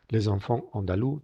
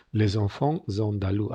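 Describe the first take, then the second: First: ENFANTS ANDALOUS with no Z between them; optional liaison dropped. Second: ENFANTS linked to ANDALOUS with a Z; full liaison. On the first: Teacher showing the other option, ENFANTS ANDALOUS left unlinked, silent S. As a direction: say "lay-zon-fon on-da-loo" for LES ENFANTS ANDALOUS. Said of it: "también puede ser más facultativa". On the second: Teacher showing the contact, LES ENFANTS ANDALOUS slowly with both Z links. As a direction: slowly say "lay-zon-fon-zon-da-loo" for LES ENFANTS ANDALOUS. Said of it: "Aquí veis que entran en contacto". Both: Shown as a demonstration.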